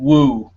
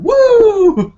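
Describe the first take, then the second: First: Said in the usual way. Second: Very high, loud drawn-out whoop; Ric Flair. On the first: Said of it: "I hear them outside yelling". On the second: Retold or imitated. Imitating neighbor yelling outside like a wrestler, high loud whoop. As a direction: let out a wrestler's piercing yell. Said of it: "I hear him yelling".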